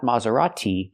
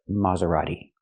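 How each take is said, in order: First: The T is a crisp, hard T sound. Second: The T is a fast, flapped D sound. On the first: The speaker calls it wrong. "Not Maserati" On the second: The speaker calls it right. "but Maserati. Use the fast D"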